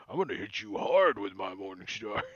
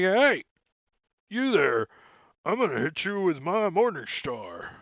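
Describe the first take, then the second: First: Low bugbear voice; lower bugbear threat. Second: Raised, swooping bugbear voice; threatening bugbear. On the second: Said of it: "he's gonna be like". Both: Acted.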